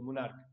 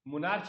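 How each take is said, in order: First: The word ends with a 'k' sound. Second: The word ends with a 'ch' sound. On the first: The speaker calls it right. "मुनार्क पढ़ते हैं इसको" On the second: The speaker calls it wrong. "मुनार्च नहीं"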